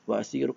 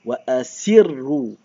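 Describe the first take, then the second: First: It is read softly and quietly. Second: It is read loudly and clearly. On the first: The reader is not confident. The speaker calls it wrong. "Kalau kita pelan, pelan contoh" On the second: The reader is confident and hears each letter. The speaker calls it right. "Bila kita baca kuat"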